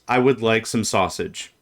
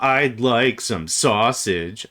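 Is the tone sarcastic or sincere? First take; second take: sincere; sarcastic. First: It is said in a sincere, plain tone. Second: It is said in a sarcastic tone. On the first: The speaker really wants sausage. "That's one way to say a statement" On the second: The speaker does not really want sausage. "I said the same words, but they mean different things"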